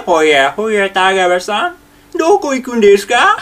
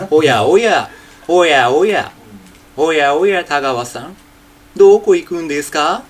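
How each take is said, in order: First: Full Takiguchi impression, voice and manner together, higher at the end; teacher combines voice and manner for the full Takiguchi; Takiguchi Junpei voice. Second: Only the speaking style of Takiguchi Junpei, own plain voice; teacher demos the lilting Takiguchi delivery in his natural voice; Takiguchi Junpei manner. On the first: 声も話し方も滝口順平そっくりに. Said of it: "これ合わせることによって初めて". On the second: 滝口順平の話し方だけ、地声で. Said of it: "これ、話し方だけは滝口順平です". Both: Shown as a demonstration.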